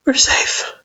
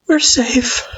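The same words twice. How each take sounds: First: High, trembling whisper; shaky whisper. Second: High voiced Frisk. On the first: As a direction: whisper it shakily, still scared. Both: A narrator's reading. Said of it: "Frisk repeated shakily".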